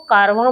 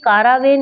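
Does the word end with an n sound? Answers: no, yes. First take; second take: no; yes. First: The word ends in a vowel, no n sound. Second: The word ends with an n sound. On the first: The speaker calls it right. "इसको कारवा बोला जाता है" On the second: The speaker calls it wrong. "ये कारावेन नहीं होता है"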